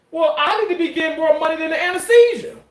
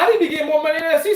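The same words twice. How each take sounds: First: Joking boast. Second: Fast, high, laughing through the boast; rattled off high and fast through laughter. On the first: Joking retort to doctor. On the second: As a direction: crack up while repeating it. Repeats line laughing, fast. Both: Retold or imitated.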